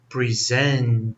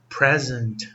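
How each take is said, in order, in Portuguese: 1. A tônica está na segunda sílaba. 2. A tônica está na primeira sílaba. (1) "a sílaba tônica está em zent" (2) "a sílaba tônica está aqui"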